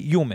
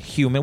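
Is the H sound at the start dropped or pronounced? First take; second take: dropped; pronounced. First: The word starts without an H sound. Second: The word starts with a clear H sound. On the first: This is how people in Jersey say it. "We say human" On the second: This is how others outside Jersey say it. "We don't say human"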